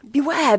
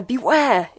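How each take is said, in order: First: High, loud desperate scream. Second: Screaming. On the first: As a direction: scream the warning. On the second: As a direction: repeat the scream, still loud. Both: A narrator's reading. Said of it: "it screamed".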